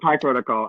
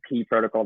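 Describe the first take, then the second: First: The first word sounds like 'pie'. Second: The first word sounds like 'pee'. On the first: The speaker calls it right. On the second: The speaker calls it wrong.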